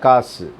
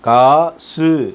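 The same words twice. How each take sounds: First: The final su is clipped short and weak. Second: The final su is said with a full vowel. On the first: The speaker calls it right. "இல்லை காசு" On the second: The speaker calls it wrong. "காசு அப்படின்னு நான் சொல்கிறோம்"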